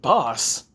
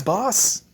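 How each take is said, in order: First: Falling, baffled repeat; puzzled echo. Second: High, lifting address; admiring kid. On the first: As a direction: echo the title in usual pitch, baffled. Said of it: "And Naruto was just". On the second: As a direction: tack it on brightly as a title. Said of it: "It's like". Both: Acted.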